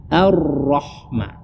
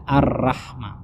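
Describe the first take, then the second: First: "Ar-Rahma" with a heavy ra, nearly "roh"; full-mouthed rolled R in "Ar-Rahma"; thick ra. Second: "Ar-Rahma" with a light, open "ra"; unthickened R in "Ar-Rahma"; wrong thin ra. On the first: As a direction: say "Ar-Rahma" slowly with a rounded, dark R. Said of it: "seharusnya roh itu ditebalkan". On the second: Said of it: "rohnya tidak ditebalkan". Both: Shown as a demonstration.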